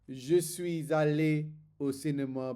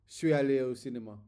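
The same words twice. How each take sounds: First: Each word is pronounced fully and separately. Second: Sounds are dropped and the words run together. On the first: This is the textbook way of saying it. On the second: This is how natives actually say it.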